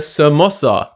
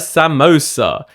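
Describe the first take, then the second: First: It is said with the native Hindi pronunciation. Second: It is said with an anglicized English pronunciation. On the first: The speaker calls it right. "it's a samosa, not a samosa" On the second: The speaker calls it wrong. "not a samosa"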